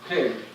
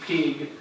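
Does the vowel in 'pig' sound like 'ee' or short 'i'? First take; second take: short i; ee. First: The vowel is a short 'i' sound. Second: The vowel is a long 'ee' sound. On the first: The speaker calls it right. "rather than as pig" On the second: The speaker calls it wrong. "pig is sometimes produced with E, pig, in Spanish accented English"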